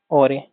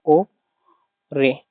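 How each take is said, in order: First: ओरे said smoothly as one joined word; whole word. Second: ओ and रे said as two separate, split syllables. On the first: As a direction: blend ओरे together in one go. (ओरे को एक साथ जोड़कर बोलना) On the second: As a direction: break ओरे into ओ, pause, रे. (शब्द को अक्षर-अक्षर तोड़कर, ओ... रे) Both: Shown as a demonstration. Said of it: "इसको ओरे प्रोनाउंस करते हैं".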